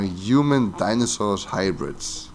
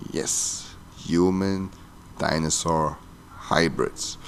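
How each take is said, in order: First: Said in the usual way. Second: "human dinosaur hybrids" softer and slow, a pause between words; deadpan emphatic repeat. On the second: Real, not acted. Vlogger confirming an absurd movie idea to viewers, deadpan word-by-word "human dinosaur hybrids".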